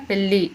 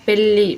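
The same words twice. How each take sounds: First: పెళ్ళి as "pelli", tongue at the teeth; plain double l. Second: పెళ్ళి with curled-tongue double ళ; retroflex double L. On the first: Teacher showing an error, పెళ్ళి with dental l. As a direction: flatten ళ్ళ in పెళ్ళి to ల్ల. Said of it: "అని పలుకుతారు". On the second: Teacher showing the correct form, పెళ్ళి with retroflex L. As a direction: curl the tongue and hold the ళ్ళ of పెళ్ళి. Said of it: "అలాను సరిగా ఉచ్చరించలేకపోవటం". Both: Shown as a demonstration.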